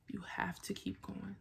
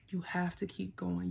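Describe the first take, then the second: First: Whispered to herself, much softer. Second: Said in the usual way. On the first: Real, not acted. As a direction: breathe it as a soft whisper of encouragement. Whispered repeat of the same line.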